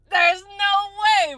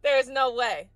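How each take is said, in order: First: Way pitched high and drawn out slowly; high, slow, incredulous there's no way; stunned disbelief. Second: Said in the usual way. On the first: Real, not acted. Reacting to the clip, high and stretched in disbelief.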